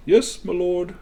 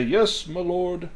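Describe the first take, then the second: First: Higher, distant butler reply; lightly voiced servant. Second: Slow, higher distant servant reply; lightly voiced butler. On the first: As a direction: answer the lord from afar. Servant answers again. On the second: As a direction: answer the lord from another room. Servant answers from afar.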